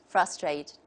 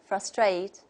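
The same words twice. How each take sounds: First: The stress is on the first syllable. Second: The stress is on the second syllable. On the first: This is the American pronunciation. "the American model will just take the opposite" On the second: This is the British pronunciation. "the stress is on the second syllable"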